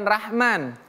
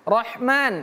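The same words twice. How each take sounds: First: The first syllable has a thin 'a' vowel. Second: The first syllable has a heavy 'o' vowel. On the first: The speaker calls it wrong. "bukan Rahman" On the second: The speaker calls it right.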